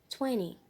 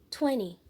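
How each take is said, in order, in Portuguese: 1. É falado com sotaque americano. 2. É falado com sotaque americano.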